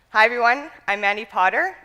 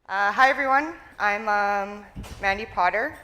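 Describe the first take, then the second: First: It sounds confident and fluent, without hesitation. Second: It sounds nervous and hesitant, with fillers.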